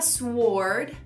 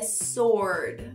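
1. O som do W é pronunciado depois do S. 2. O W é mudo depois do S. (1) "Não é sword" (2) "é sword. Silent W"

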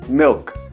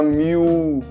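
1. A palavra tem um L de verdade, com a língua levantada. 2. O L vira um som de vogal parecido com U. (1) "Você coloca a língua no céu da boca para falar esse L" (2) "Em português a gente fala miu, com som de u mesmo"

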